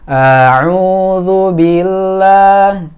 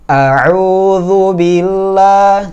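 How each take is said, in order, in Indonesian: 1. Vokal pembukanya dipanjangkan. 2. Vokal pembukanya dibaca pendek. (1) "ini kepanjangan hamzahnya" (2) "Harusnya cuma satu harakat hamzahnya langsung masuk ke ainnya"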